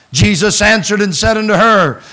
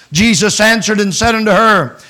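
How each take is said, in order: Both takes have the same delivery.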